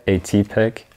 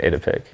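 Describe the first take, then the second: First: "A-T-Pic" with the letters A and T named separately; alternative pronunciation. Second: "Atypic" run together as AY-tuh-pick; own pronunciation. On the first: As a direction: sound out "A-T-Pic" as AY-TEE-pick. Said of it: "you kinda pronounce it like". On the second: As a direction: say "Atypic" casually as one word, AY-tuh-pick. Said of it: "I just pronounce it Atypic". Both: Shown as a demonstration.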